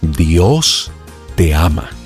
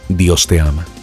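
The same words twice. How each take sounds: First: It is said very slowly. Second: It is said at a normal pace.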